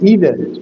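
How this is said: The word is said in an American accent. "and the second one is American"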